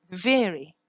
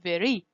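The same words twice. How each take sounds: First: "Very" with a quick tapped R; "Very" stressed on the first syllable, R flapped. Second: "very" with a smooth approximant R, no tap; "very" with a gliding English R; untapped R. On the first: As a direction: tap the R once between the vowels of "Very". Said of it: "So you use the R sound". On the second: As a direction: say "very" without flapping the R. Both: Shown as a demonstration.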